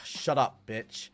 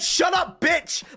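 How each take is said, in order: First: It is muttered quietly under the breath. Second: It is shouted loudly.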